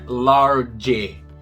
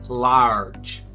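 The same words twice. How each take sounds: First: It has two syllables with a final vowel sounded. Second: It has one syllable with a silent final e. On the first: The speaker calls it wrong. "Não é large. Não, esse E não é pronunciado" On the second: The speaker calls it right. "Uma só, né?"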